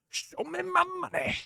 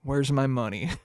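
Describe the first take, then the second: First: Much higher, softer, laughing squeak; squeaky mock demand. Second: Said in the usual way. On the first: To Taco Bell over the drink's name, a high laughing squeak. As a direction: squeal it like a cartoon creditor, giggling.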